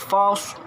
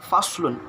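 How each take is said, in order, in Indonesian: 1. Kata ini berhenti pendek tanpa vokal akhir. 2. Kata ini berakhir dengan vokal penuh dan n.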